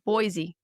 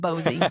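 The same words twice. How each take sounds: First: It sounds like the Idaho city's name. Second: It sounds different from the Idaho city's name. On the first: This is the familiar pronunciation from elsewhere. "My first instinct is to say" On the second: This is how a local said it. "This man told me it was Boise"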